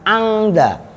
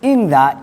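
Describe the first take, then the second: First: The first vowel is a. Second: The first vowel is i. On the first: This is an acceptable reading. "Boleh dibaca fathah, bunyinya angda" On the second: This is the most eloquent reading. "Ingza ini yang afsah"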